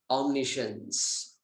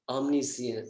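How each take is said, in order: First: It is said with an American English accent. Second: It is said with a British English accent. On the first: "Then American" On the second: "Then British"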